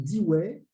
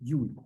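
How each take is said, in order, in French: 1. Le nom se prononce à la française. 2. Le nom se prononce à l'anglaise. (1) "souvent mal prononcé en France" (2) "la prononciation correcte est Dewey"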